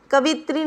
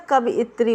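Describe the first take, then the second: First: कवित्री in three syllables: ka-vi-tree; wrong pronunciation. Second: कवियत्री with an extra syllable: ka-vi-it-tree; correct pronunciation. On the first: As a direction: run "vi" straight into "tree" in कवित्री. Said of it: "कवित्री नहीं होता". (कवित्री को बिना "यि" के बोलें) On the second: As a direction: separate the middle vowel in कवियत्री. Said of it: "कवियत्री होता है". (कवियत्री में बीच का स्वर अलग बोलें) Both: Shown as a demonstration.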